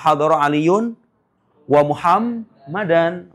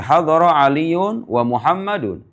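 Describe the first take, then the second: First: The last word ends with an 'an' sound. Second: The last word ends with an 'un' sound. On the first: Ali came together with Muhammad. "Gimana bunyinya kalau dia menjadi maf'ul ma'a?" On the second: Ali and Muhammad both came, joined by 'and'. "Bisa dibaca begini"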